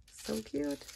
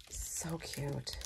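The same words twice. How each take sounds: First: Much higher, gushing squeal; excited squeal. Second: Breathy whispered aside, softer. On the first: Crafter gushing to viewers over a pop, squealed. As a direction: let it pop up high with delight. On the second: Crafter admiring a cake stand, whispered. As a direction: hush it like a secret delight. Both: Real, not acted.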